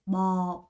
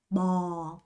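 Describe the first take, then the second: The two takes are said the same way.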